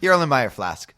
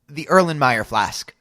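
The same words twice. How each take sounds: First: It is said fast. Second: It is said slowly.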